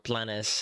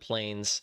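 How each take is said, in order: First: The name is said with a Spanish accent. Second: The name is said with an English accent.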